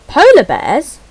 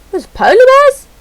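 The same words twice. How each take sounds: First: Louder, rising question of surprise; a real, louder "Polar bears?"; surprised question. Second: Much higher and louder squeal of delight; a real, much higher and louder squeal of joy; excited shriek. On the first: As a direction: catch sight of them and ask it. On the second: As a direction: squeal "There's polar bears?" high with glee. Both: Real, not acted. Spots polar bears in menu.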